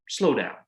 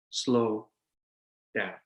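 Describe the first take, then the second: First: Said in the usual way. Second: Slow down with a long pause between the two words; slowed demo. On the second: Shown as a demonstration. Coaching young lawyers to slow down, drawn-out and paused. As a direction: stretch "Slow" out, then a long gap before "down.".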